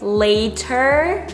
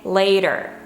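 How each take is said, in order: First: The middle consonant is a crisp T. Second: The middle consonant is a soft D. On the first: "instead of saying later" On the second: "they will say later"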